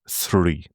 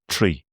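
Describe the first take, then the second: First: The word begins with a soft 'th' sound. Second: The word begins with a hard 't' sound. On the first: "if you were to speak the English language, again, so-called properly, you'd be softening that" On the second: "in Ireland, we tend to say tree"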